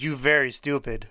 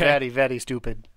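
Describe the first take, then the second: First: Lightly put-on, bad Russian accent; a hint of a robotic Russian teddy bear, in a bad Russian accent. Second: Put-on Russian accent, the r in very said as an l; clumsy mock Russian accent, "vely, vely stupid"; bad Russian accent. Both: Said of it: "That's my bad Russian accent".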